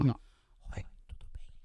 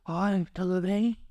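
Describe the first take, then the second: First: It is said in a full whisper without voice. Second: It is said in a hoarse, almost whispered voice.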